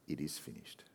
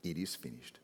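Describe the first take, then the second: First: Hushed, dying words. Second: Hushed echo. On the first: Acted. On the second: Shown as a demonstration.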